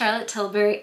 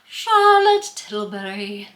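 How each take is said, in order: First: The name is said in a plain, ordinary manner. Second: The name is said in a put-on, exaggerated manner. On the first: It is the ordinary way of saying the brand. "saying it normal doesn't sound right" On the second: It mimics how everyone playfully says the brand. "I had to say it like that. That's how all of us say it"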